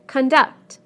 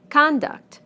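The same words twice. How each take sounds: First: Con-DUCT, the verb; stress on second syllable. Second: CON-duct, the noun, falling; stress on first syllable. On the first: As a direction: punch DUCT in conduct, weak con. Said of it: "second syllable in the verbs". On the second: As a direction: punch CON in Conduct. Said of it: "first syllable in the nouns". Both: Shown as a demonstration.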